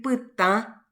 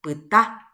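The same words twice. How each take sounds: First: "pytã" with the final ã nasalized; "pytã" ending through the nose; teacher contrasting "pytã" with a nasal final ã against the oral "pytá"; nasal final vowel. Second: "pytá" with a plain oral final a; "pytá" ending with the a through the mouth only, no nasal; teacher contrasting the oral "pytá" against "pytã" with its nasal final ã; oral final vowel. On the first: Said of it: "En vez de decir pytã, va a decir pytá". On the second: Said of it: "va a decir pytá". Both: Shown as a demonstration.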